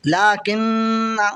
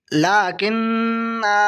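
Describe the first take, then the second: First: लाकिन्ना with a short final "na"; final alif silent. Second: लाकिन्ना with a long held "naa"; final alif sounded. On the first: Teacher reads it without alif, short "na" on noon. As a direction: keep the nasal hum, end लाकिन्ना briefly. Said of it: "बगैर अलिफ के". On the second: Teacher shows the written alif read out, long final "naa". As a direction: slowly stretch the end of लाकिन्ना. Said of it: "ये अलिफ नहीं पढ़ा जाएगा". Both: Shown as a demonstration.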